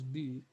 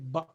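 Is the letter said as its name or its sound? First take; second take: name; sound. First: The letter is said as its full name. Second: The letter is said as its bare sound. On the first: This names the letter. "you are naming the letter" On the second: This gives the sound the letter makes. "from just the point of articulation, you say ba"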